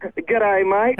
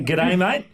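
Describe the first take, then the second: First: An American trying an Australian "G'day, mate"; imitated Aussie accent. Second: Native Aussie "G'day, mate" as a model; Australian accent. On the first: Guest copies host's greeting on request, attempted Aussie accent. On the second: Host shows guest how to say it, Australian accent. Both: Shown as a demonstration. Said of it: "Can, can you say".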